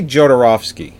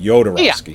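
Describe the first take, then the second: First: The name begins with a J sound. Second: The name begins with a Y sound. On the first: "you say Jodorowsky" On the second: "the J sounds like a Y"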